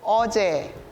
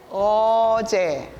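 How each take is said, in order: First: It is said fast. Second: It is said slowly.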